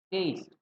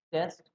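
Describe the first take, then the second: First: टेस्ट with a long ei glide, as "taste". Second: टेस्ट with a short open e, as "test". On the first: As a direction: say टेस्ट as in flavour, "teist". (टेस्ट को "टेइस्ट" बोलें, स्वाद वाला) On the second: (टेस्ट में छोटा "ए", परीक्षा वाला) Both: Shown as a demonstration. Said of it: "difference देखो".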